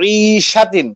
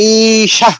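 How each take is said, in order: First: The word ends with the full -tin ending. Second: The word stops without its final -tin ending. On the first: The reading continues past this word. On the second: The reading stops at this word.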